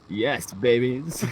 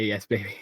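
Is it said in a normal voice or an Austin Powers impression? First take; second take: Austin Powers; normal voice. First: It is said in an Austin Powers voice. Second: It is said in his normal voice.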